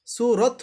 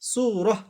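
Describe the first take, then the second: First: "সুরত" with long oo and a final t; unconverted t ending on "সুরত"; stop on t. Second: "সুরহ" with long oo and a breath of h at the end; stop on h. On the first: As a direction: draw out the oo, close "সুরত" on a t. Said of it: "তাহলে কি হতো?". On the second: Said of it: "তাকে হা পড়ব". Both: Shown as a demonstration.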